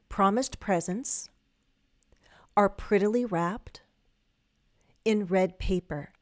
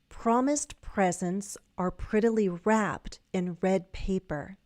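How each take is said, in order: First: The sentence is said at a slower pace. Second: The sentence is said at a faster pace.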